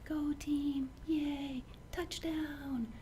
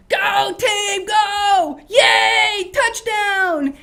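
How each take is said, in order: First: Softer, higher, timid cheer; tiny quiet cheer. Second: Shouted, much higher and louder; full-throated stadium shout; loud cheer. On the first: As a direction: cheer as if afraid to be heard. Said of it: "are you gonna sit there and go". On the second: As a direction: yell for your team in the stands. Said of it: "you go". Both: Shown as a demonstration.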